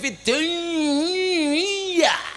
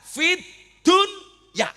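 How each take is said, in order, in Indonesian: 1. Konsonan penyambung menyatu dengan kata berikutnya. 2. Konsonan penyambung diucapkan jelas dan terpisah. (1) "Idgham, kudune fit dunya" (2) "kon maca idhar"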